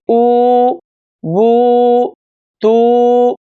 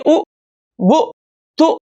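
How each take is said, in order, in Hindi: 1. स्वर खींचकर और लंबे रखकर पढ़े जाते हैं। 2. स्वर छोटे होते हैं और जल्दी पढ़े जाते हैं। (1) "बल्कि उ बु तु सु, इस तरह से हम पढ़ेंगे" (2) "इसको हम जल्दी नहीं पढ़ेंगे, यानी उ बु तु इस तरह से नहीं पढ़ेंगे"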